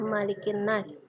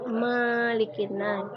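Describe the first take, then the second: First: The first vowel 'ma' is kept short. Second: The first vowel 'ma' is drawn out long. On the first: The speaker calls it right. "Kita membacanya seperti biasa" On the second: The speaker calls it wrong. "ibu mendengar anak-anak membaca Malikin Nas. Di huruf ma itu tidak panjang"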